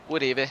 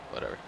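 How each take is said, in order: First: Higher, louder, shrugging it off; louder exasperated whatever. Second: Said in the usual way. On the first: Real, not acted. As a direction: toss the word away with a loud shrug. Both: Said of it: "I did not mean to save".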